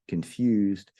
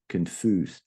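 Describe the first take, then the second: First: The stressed vowel sounds like 'you'. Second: The stressed vowel is a plain 'oo' sound. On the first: The speaker calls it right. "you want to really get that U" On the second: The speaker calls it wrong. "you don't want to say confused"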